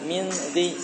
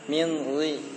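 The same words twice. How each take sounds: First: The r sound is thin and light. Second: The r sound is thick and heavy. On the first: The speaker calls it wrong. "Jadi jangan" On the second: The speaker calls it right. "berarti suaranya itu dihem-hem"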